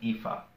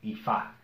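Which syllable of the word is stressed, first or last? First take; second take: first; last. First: The stress is on the first syllable. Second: The stress is on the last syllable. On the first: The speaker calls it wrong. "not ifa" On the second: The speaker calls it right. "emphasis on the last A"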